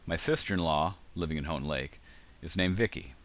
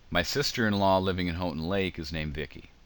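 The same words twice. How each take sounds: First: Pauses set off the middle phrase on both sides. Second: It flows without pauses around the middle phrase. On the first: The speaker has only one sister-in-law. "if I read it that way, and you can see that there are commas around living in Houghton Lake" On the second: The speaker has more than one sister-in-law. "It sounds like I'm emphasizing a sister-in-law living in Houghton Lake"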